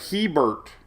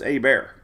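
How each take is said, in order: First: The name is pronounced the way it is spelled. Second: The name is pronounced like the words "a bear". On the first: The speaker calls it wrong. "I used to call it Hebert... because that's what it looks like" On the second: The speaker calls it right. "But it's A Bear. Totally different than the way it looks"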